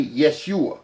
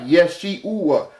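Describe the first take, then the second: First: Said in the usual way. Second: "Yeshua" split as Yesh-ee-oo-uh, higher; vowels pulled apart. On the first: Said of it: "That's why his name can't be". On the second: Shown as a demonstration. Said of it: "E-U-A".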